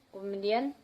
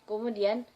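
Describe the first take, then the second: The two takes are said the same way.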